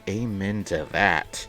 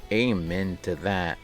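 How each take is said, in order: Both takes have the same delivery.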